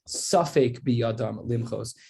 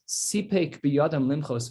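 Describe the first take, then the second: First: The first word begins with the vowel 'a'. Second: The first word begins with the vowel 'i'. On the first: They were unsure whether to protest. The speaker calls it wrong. "It's not safek biyadam limchos" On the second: They had it in their power to protest. The speaker calls it right. "a very important way to pronounce a word"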